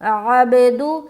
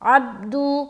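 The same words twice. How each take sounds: First: The b sound has a clear echoing bounce. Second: The b sound has no echoing bounce. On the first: The speaker calls it right. "बा में क़लक़ला भी करना" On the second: The speaker calls it wrong. "तो क़लक़ला नहीं हुआ"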